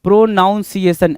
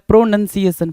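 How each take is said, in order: First: प्रोनाउंसिएशन with "noun" in the middle; common mispronunciation. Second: प्रोनंसिएशन with short "nun" in the middle; correct pronunciation. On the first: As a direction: say प्रोनाउंसिएशन as "pro-NOUN-ciation". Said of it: "N O यू N बोल दिया भाई". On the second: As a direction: say प्रोनंसिएशन as "pro-NUN-ciation". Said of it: "नन है ना, N यू N है". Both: Shown as a demonstration.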